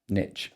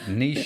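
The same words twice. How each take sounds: First: The word is said the American way. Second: The word is said the English way. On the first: "It's how you say it in America" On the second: "is how we say it here in, you know, yes. real England"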